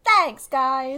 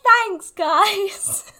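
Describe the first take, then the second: First: Drawn-out, slightly raised thank-you; Am's thanks. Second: High, loud, drawn-out mock thank-you; Am impression. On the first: Real, not acted. Guest thanks friends praising her podcast, in her friend's pet manner. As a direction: take a compliment in a friend's manner. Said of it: "in the exact same way that Am always responds". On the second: Guest mimics how her friend answers compliments, high and hammed-up. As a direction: exaggerate a friend's way of taking compliments. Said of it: "the exact same way that Am always responds".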